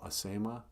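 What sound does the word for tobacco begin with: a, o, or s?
a. The word begins with an a vowel. This is the local form used down here. "down here, we call tobacco Asema"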